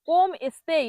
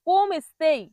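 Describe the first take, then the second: The two takes are said the same way.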